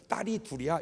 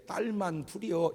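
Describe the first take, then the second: First: Put-on matter-of-fact parent stating the children; proud answer. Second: Slow, regretful parent's answer; imitating a let-down parent; wistful disappointment. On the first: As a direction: answer plainly, without regret. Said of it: "이래야 되는데". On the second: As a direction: let disappointment seep into the drawn-out words. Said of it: "섭섭함이 그 말 속에 있어요". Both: Shown as a demonstration.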